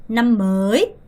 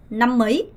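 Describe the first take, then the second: First: "năm mới" with "mới" drawn out; slow "năm mới", late rise on "mới"; long-vowel reading. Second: "năm mới" with "mới" shortened, like mấy; brief "năm mới", fast rise on the last word; short-vowel reading. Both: Shown as a demonstration. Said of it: "정확하게 구분하셔야 됩니다".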